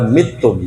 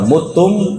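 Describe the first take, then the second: First: The first vowel is a front i sound. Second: The first vowel is a rounded u sound. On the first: This is another accepted reading of the word. "ada yang baca mitum" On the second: This is one accepted reading of the word. "Ada yang baca mutum"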